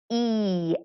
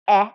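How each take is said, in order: First: The vowel is said as its letter name. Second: The vowel is a short sound, as in egg. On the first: "long vowels are pronounced by saying their own name" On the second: "short version"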